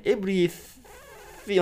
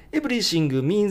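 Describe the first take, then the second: First: Slow "Everything" with a V; correct V. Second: "Everything means" as "エブリシング"; the katakana way; wrong katakana. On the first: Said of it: "まず、every ですね". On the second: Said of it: "じゃないですね". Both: Shown as a demonstration.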